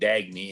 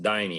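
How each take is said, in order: First: The name is said with a hard g sound. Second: The name is said without any g sound. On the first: The speaker calls it wrong. "I'm sitting there calling her Dagny" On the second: The speaker calls it right. "You pronounce it Diney"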